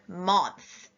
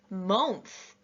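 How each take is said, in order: First: The vowel is said as an open ah sound. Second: The vowel is said as a rounded oh sound. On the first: "they would have tried ah" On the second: "they would have tried oh"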